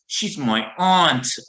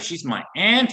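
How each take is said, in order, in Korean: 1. 영국식 억양으로 말합니다. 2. 미국식 억양으로 말합니다.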